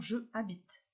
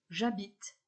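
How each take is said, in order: First: The vowel of je is kept before habite. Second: The vowel of je is dropped before habite. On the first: The speaker calls it wrong. "et non je habite" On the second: The speaker calls it right.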